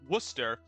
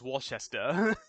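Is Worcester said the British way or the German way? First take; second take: British; German. First: It is said the British way. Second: It is said the German way. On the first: "the British say it's Worc- like Worcester" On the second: "Germans would pronounce it as Worcester"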